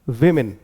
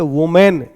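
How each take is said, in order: First: The first vowel sounds like 'ih'. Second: The first vowel sounds like 'oh'. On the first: The speaker calls it right. "सही इसका pronunciation क्या होता है" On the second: The speaker calls it wrong. "इसको इस तरह से करके पढ़ देते हैं जो कि गलत होता है"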